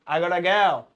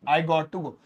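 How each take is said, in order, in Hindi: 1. Got to को एक शब्द में दबाकर gotta बोला जाता है। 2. Got to दो पूरे शब्दों की तरह बोला जाता है। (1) "आप इसे शॉर्ट में बोलिए जैसे दुनिया बोलती है, इसे बोलिए गोटा" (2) "लेकिन आप गॉट टू नहीं बोलिए"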